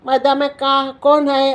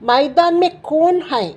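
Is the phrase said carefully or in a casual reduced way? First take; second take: casual; careful. First: The words are run together and clipped, without the nasal. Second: Each word is said fully, with the nasal ending. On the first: This is how people say it in everyday speech. "பேசும்போது மதாம கா கோனை அப்படின்னு தான் பேசுவாங்க" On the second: This is the form to use when reading. "இந்த மேமெல்லாம் நான் புள்ளி வச்சு பேசுகிறேன் இல்லையா"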